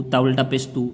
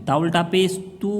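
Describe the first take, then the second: First: Quick, with a short "तू"; unstretched reading. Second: "तू" held a little longer; stretched vowel. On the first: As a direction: say "तू" briefly, without holding it. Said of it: "तो ये गलत हो जाएगा". ("तू" बिना खींचे, जल्दी में) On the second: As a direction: draw out the final "तू" to show its length. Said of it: "थोड़ा सा खींच के". ("तू" को थोड़ा खींचकर) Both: Shown as a demonstration.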